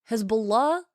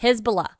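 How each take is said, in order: First: "Hezbollah" said carefully with a proper Arabic-style H; correct pronunciation. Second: "Hezbollah" said with a broad Australian accent, louder; Australian pronunciation. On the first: Streamer contrasting with Aussie version, careful "Hezbollah". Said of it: "is me saying it correctly". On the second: Streamer showing chat the Australian way, Australian "Hezbollah". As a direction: say "Hezbollah" like a plain Aussie would. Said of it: "this is how I'd say it if I was just saying it Australian". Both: Shown as a demonstration.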